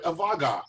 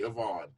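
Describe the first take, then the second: First: A hard G sound is pronounced in the name. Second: The name is said with no G sound. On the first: The speaker calls it wrong. "people try to pronounce that G" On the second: The speaker calls it right. "just say Avon"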